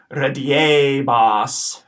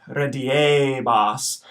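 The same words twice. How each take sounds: First: "rediebas" said in a lesson flow; first modelled take of "rediebas"; teacher's first modelled take. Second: "rediebas" drawn out, short re, long e, long a; slow echo of "rediebas"; slow Latin pronunciation. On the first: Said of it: "these words are gonna be pronounced". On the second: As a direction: stretch each syllable of "rediebas" slowly. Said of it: "That second E is long". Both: Shown as a demonstration.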